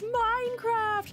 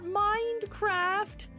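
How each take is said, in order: First: The word has no 'd' sound after 'mine'. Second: The word has a 'd' sound after 'mine'. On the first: The speaker calls it right. "it's Minecraft" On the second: The speaker calls it wrong. "He would always put a D at the end of mine"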